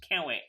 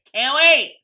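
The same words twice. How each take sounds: First: Said in the usual way. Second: Loud, high burst of eagerness; excited outburst. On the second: Real, not acted. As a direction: belt it out, thrilled and impatient.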